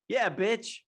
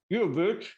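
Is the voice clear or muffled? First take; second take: clear; muffled. First: It is said in a clear voice. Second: It is said in a muffled voice.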